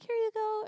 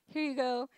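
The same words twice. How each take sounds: First: It is said in a high voice. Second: It is said in a lower voice.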